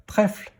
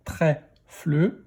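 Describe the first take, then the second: First: Said in the usual way. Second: "Trèfle" split into trè, fle; "Trèfle" in two beats; syllable by syllable. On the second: Shown as a demonstration. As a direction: sound out "Trèfle" with a separate fle. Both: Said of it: "Première syllabe".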